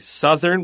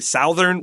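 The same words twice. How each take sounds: First: The first vowel is a short 'uh' sound. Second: The first vowel is an 'ow' sound. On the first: The speaker calls it right. "we say southern with a short U sound" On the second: The speaker calls it wrong. "We don't say southern"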